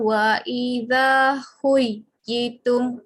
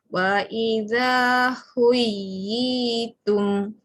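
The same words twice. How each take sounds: First: The 'yi' vowel is said short, not held. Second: The 'yi' vowel is held long, two beats. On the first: The speaker calls it wrong. "Kalau tak ada yi tu panjang" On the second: The speaker calls it right. "yi tu tarik dua"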